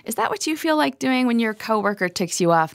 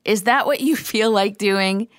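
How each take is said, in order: First: Said in the usual way. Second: Laughing mid-question on you; a half-laughed repeat of the question. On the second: Real, not acted. Teacher laughing as she asks listeners again. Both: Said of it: "No, really".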